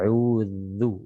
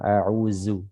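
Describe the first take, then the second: First: The consonant is a light dh with tongue tip. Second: The consonant is a plain z sound. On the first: The speaker calls it right. "Zal ini dibaca dengan tipis ya" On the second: The speaker calls it wrong. "Jangan sampai berubah menjadi huruf zai ya"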